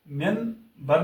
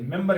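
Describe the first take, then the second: First: मेंबर said with a clear n, as "menbar"; slow demo of मेंबर with n before b, as a mistake; wrong n sound. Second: मेंबर said with m before b, as "membar"; correct m sound. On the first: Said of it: "मेंबर नहीं कहते". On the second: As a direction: show the right मेंबर, n turning into m. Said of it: "मेंबर कहते हैं". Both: Shown as a demonstration.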